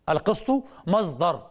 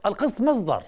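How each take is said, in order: First: القسط مصدر said slowly, each word weighed; slow emphatic repeat. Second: Said in the usual way. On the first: Shown as a demonstration. Lecturer driving the point home to students, slow and emphatic.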